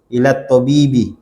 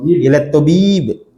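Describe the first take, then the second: First: The last word ends with a short 'i' vowel. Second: The last word ends on a consonant, no vowel. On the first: The full case ending is pronounced. "Yang betulnya ilat tobibi" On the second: The case ending is dropped to stay safe. "antum sukunnya aja biar selamat"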